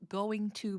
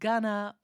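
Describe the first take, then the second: First: Both words are said fully and separately. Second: The words are blended into one short form. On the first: "going to becomes gonna" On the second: "make things shorter"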